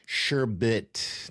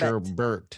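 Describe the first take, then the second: First: The second syllable has no r sound. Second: The second syllable has an added r sound. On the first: The speaker calls it right. "It's sherbet. Sherbet, not" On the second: The speaker calls it wrong. "not sherbert"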